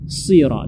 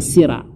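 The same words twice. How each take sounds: First: "sira" with a dark S, nearly "siro"; heavy emphatic S in "sira"; correct thick sod. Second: "sira" with a light S and open A; unthickened "sira"; wrong thin sod. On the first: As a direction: say "sira" full-mouthed and rounded. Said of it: "sira dibaca tebal". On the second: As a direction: say "sira" as with plain sin. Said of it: "bukan sira". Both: Shown as a demonstration.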